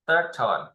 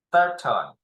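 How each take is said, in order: Both takes have the same delivery.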